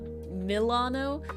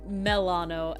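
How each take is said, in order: First: The first syllable sounds like the Milano cookie. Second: The first syllable sounds like 'mel' in melanin. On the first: The speaker calls it wrong. "and not Milano" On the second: The speaker calls it right. "I try to say it as Melano"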